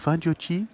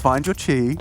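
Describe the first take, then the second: First: It is said in a put-on French accent. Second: It is said in the speaker's ordinary accent.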